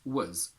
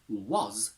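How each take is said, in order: First: The word is said with a reduced vowel. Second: The word is said with a full vowel.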